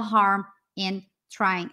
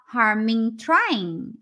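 First: Each word is said separately with breaks. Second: The words run together as one word. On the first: The speaker calls it wrong. "a gente não fala harm and trying" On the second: The speaker calls it right. "Vira uma palavra só"

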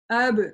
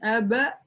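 First: The syllable ends abruptly on a clean b. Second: The syllable ends with an added a vowel. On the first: The speaker calls it right. "читаем ее резко, четко" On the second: The speaker calls it wrong. "не аба"

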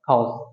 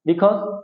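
First: The word is shortened to one syllable. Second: The word is said in full, two syllables. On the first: "সংক্ষেপে cause" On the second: "তো বিকজকে আমরা বলতে পারি সংক্ষেপে cause"

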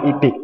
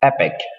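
First: The first vowel is a long 'ee' sound. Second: The first vowel is a short 'eh' sound. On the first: The speaker calls it wrong. "คนไทยอ่านนะครับอีพิก" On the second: The speaker calls it right. "แต่ว่าจริงๆนะมันอ่านว่า"

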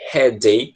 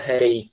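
First: The middle consonant is a clear D sound. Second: The middle consonant is a quick R-like flap. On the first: "como se fosse um D mesmo" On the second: "Americano gosta de pegar o D e transformar em R"

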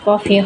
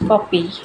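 First: The middle consonant is an f sound. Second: The middle consonant is a p sound. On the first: This is the hurried, regional way of saying it. The speaker calls it wrong. "তাড়াহুড়া করে বা আঞ্চলিক ভাষায় কফি বলে ফেলাই" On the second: This is the proper name of the vegetable. The speaker calls it right. "এটার আসল নাম হচ্ছে কপি"

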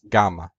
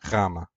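First: It is said with the classical Greek pronunciation. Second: It is said with the modern Greek pronunciation. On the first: "In classical Greek, it was pronounced gamma" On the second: "In Koine and modern Greek, it's pronounced gamma"

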